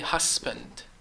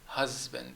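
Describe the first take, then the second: First: The middle consonant is a hissing s sound. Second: The middle consonant is a buzzing z sound. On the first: The speaker calls it wrong. "I don't say husband" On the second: The speaker calls it right. "It ends up as husband. So it sounds like a z"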